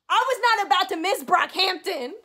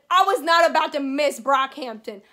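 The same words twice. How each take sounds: First: Higher-pitched, insistent repeat of "I was not about to miss Brockhampton"; emphatic repeat. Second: Said in the usual way. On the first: Real, not acted. Fan insisting on seeing the favourite band, emphatic.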